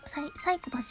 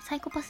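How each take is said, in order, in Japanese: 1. メンチカツとアクセントが違う。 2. メンチカツのパターンに沿っている。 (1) "サイコパスじゃないからね" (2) "サイコパスが発音イントネーションでございます。メンチカツと一緒"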